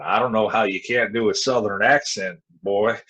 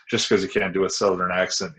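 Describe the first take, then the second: First: Lightly put-on Southern twang; Southern accent. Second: Said in the usual way. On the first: Shown as a demonstration. Wrestler ribbing his partner over an accent, mock Southern twang. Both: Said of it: "do with some Southern accent".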